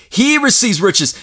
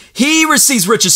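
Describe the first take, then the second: First: Slow, deliberate, every word weighed; measured, weighty repetition; slow emphasis. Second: Higher, stressing HE; preacher lifting the repeat higher; lifted repeat. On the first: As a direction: lay it down slowly. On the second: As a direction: raise it up and hit HE. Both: Shown as a demonstration.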